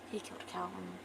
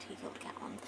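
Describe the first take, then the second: No difference in how they are said.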